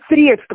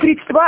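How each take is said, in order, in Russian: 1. Ударение на первом слоге. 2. Ударение на последнем слоге. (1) "а средства" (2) "не средства"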